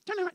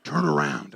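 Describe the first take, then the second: First: Imitated tiny dove voice; little voice. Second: Very low, full dove voice; big, deep voice. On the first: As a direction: say it small, as the wrong version. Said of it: "It wasn't like a little one". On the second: Retold or imitated. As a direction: drop way down for a booming command. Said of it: "A big, deep voice".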